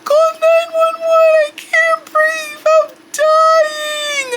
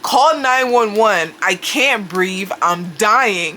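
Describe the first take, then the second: First: It is said in a strained, breathless voice. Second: It is said in her ordinary speaking voice.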